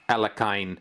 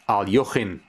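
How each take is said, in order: First: The surname is given its usual English pronunciation. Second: The surname is given an approximate Russian pronunciation. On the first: "That's how his last name is pronounced in the English-speaking world" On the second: "it's actually pronounced as Alyoshin, or something like that anyway"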